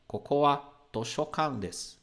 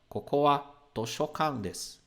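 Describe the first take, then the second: First: The particle runs straight on from the word before. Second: The particle runs straight on from the word before.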